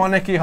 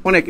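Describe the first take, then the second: First: অনেকই keeps an open "aw" first vowel, "awnek-i"; correct pronunciation. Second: অনেক said with a rounded first vowel, "onek"; mistaken pronunciation. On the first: Teacher states the rule, অনেকই with open "aw". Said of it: "অনেক বানানটার উচ্চারণ অনেকই হবে". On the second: Teacher voices students' likely error, অনেক as "onek". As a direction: start অনেক on a close "o", as ওনেক. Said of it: "এভাবে লিখবা না?". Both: Shown as a demonstration.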